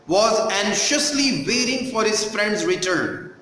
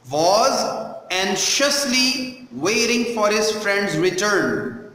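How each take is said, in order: First: Said in the usual way. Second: Slow, with "anxiously" set apart word by word; slow pronunciation model. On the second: Shown as a demonstration. Teacher repeating the line for pupils, slow and careful on "anxiously". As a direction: spell out "Was anxiously waiting" slowly, word by word. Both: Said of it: "how I am pronouncing each word".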